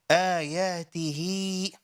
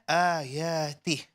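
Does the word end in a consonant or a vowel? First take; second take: vowel; consonant. First: The word ends with a final vowel after h. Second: The word ends on a silent final consonant. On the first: The reciter continues without stopping. "The word originally is ayatihi" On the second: The reciter stops at this word. "when we stop here, the small ya will disappear"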